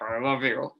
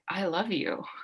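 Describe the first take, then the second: First: It is said in an angry, irritated tone. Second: It is said in a warm, affectionate tone. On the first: The words are said while upset with the person. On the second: The words are meant sincerely.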